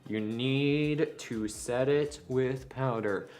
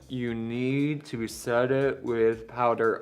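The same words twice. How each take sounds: First: It is said at normal volume. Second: It is said loudly.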